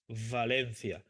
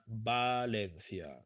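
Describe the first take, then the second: First: It begins with a v sound, as in English. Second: It begins with the same b sound as Barcelona. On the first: This is the older pronunciation. "In the past, people pronounce Valencia in this way. ... something similar as in English" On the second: This is how it is said today. "now we pronounce that exactly in the same way"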